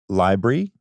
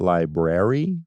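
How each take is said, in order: First: A sound in the middle is dropped. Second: Every sound in the middle is pronounced. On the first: The speaker calls it wrong. "when I say l- library, ... I miss some, some like letters" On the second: The speaker calls it right. "not library"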